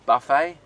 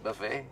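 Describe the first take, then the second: First: The word is said the Australian way. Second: The word is said the French-like way. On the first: "in Australia we say buffet" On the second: "probably more like the French would say it"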